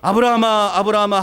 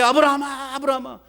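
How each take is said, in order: First: The name is called in a calm reading voice. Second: The name is called urgently and hurriedly.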